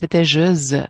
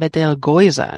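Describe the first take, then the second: First: It is pronounced the French way. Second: It is pronounced the German way. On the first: "En francés" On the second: "Y en alemán lo llaman Betelgeuse"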